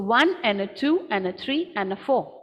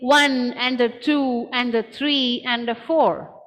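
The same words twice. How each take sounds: First: 'And a' is squished into a short 'n' sound. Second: 'And a' is said fully, every syllable given equal weight. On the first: "my and a is squished to n" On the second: "Instead of saying"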